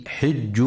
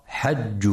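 First: "حج" said hijju, with an i vowel after the ح; kasra on the ḥa. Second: "حج" said hajju, with an a vowel after the ح; fatha on the ḥa. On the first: Tajweed teacher showing listeners the correct reading, "حج" as hijju with i. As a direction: read "حج" with a short i on the ح. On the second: Teacher showing listeners the reading to avoid, "حج" as hajju with a. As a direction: read "حج" with a short a on the ح. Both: Shown as a demonstration. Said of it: "لكسر الحاء وعدم فتحها".

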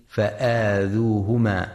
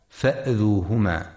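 First: فآذوهما with a drawn-out long aa, faaadhuhuma; long hamza. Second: فأذوهما with a short a, fa'adhuhuma; short hamza, wrong. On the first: Teacher shows listeners the lengthened hamza. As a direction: stretch the hamza in فآذوهما slowly. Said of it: "للهمزة الممدودة". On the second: Teacher warns listeners against shortening the hamza. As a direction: clip the hamza in فأذوهما to show the error. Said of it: "فلا يقرأ". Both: Shown as a demonstration.

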